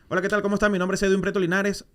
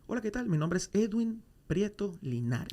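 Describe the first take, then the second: First: The introduction is said fast. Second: The introduction is said slowly.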